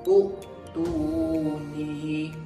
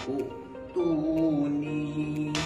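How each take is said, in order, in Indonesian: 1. Kata ini dimulai dengan vokal u pendek. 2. Kata ini dimulai dengan vokal u pendek.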